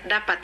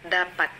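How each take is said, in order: First: The consonants are pronounced indistinctly. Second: The consonants are pronounced clearly and precisely. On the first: The speaker calls it wrong. "bukan dapat" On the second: The speaker calls it right. "harus diucapkan dapat"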